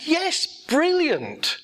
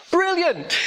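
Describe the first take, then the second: First: Slow, drawn out. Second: High, bright burst of delight; a sudden, much higher happy exclaim. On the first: Repeats the cheerful reply. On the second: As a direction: cheer it as if it's great news. Cheerful reply to bad news. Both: Retold or imitated.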